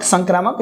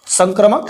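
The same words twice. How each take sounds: First: संक्रामक with a long 'aa' after kr; long-vowel variant. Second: संक्रमक with a short 'a' after kr; short-vowel variant. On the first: Teacher comparing two variant names for students, long-vowel संक्रामक. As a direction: say संक्रामक as sank-raa-muk, second vowel drawn open. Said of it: "ज़्यादा difference नहीं है". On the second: Teacher showing students two variant names of a relation, short-vowel संक्रमक. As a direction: say संक्रमक as sank-ruh-muk, second vowel short. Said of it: "कई लोग संक्रामक भी बोल देते हैं". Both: Shown as a demonstration.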